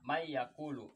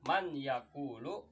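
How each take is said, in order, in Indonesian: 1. Bunyi n menyatu menjadi y yang bersengau. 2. Bunyi n diucapkan dengan jelas sebelum y. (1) "akan tetapi dibaca" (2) "asli kalimatnya"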